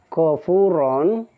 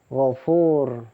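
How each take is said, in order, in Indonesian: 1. Kata ini berakhir dengan vokal diikuti n. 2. Kata ini berakhir dengan konsonan r. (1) "ini fathah tanwin ya" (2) "bukan gofur"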